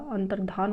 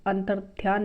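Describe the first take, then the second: First: अंतर्धान with no y sound; correct form. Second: अंतर्ध्यान with y in dhyaan; incorrect form. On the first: Teacher giving the correction, अंतर्धान without y. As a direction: say अंतर्धान as an-tar-dhaan. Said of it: "अंतर्धान होता है". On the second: Teacher rejecting the misspelling, अंतर्ध्यान with dhy. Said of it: "अंतर्ध्यान नहीं होता". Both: Shown as a demonstration.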